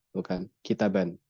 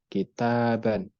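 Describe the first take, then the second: First: Kitaban said short and quick; wrong short reading. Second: Kitaban slow with the ba held long; correct long reading. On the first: Teacher contrasts the wrong short reading, clipped. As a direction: clip kitaban short as the mistake. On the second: Teacher contrasts right and wrong readings, slow. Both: Shown as a demonstration.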